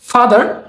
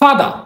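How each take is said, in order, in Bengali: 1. শেষের r উচ্চারিত হয়। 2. শেষের r নীরব। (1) "আমরা যখন বলি ফাদার" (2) "তারা বলে ফাদা"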